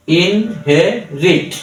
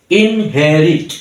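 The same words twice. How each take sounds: First: inherit broken into three slow, separate beats; slow teaching demo of inherit in three parts; split into syllables. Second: Said in the usual way. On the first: Shown as a demonstration. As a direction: say inherit syllable by syllable, pausing between each. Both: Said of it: "three সিলেবলে ভাগ করেছি".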